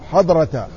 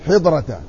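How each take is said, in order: First: The first vowel is a short a. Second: The first vowel is a short i. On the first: "بفتح الحاء" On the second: "وكسرها"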